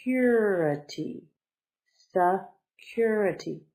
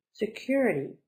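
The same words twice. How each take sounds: First: Security slowly split, se, then a long strong CUR; slow teaching breakdown of security; stress on second syllable. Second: Said in the usual way. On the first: Shown as a demonstration. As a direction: pause after se, lean hard on cur. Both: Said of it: "The accent is on the second one".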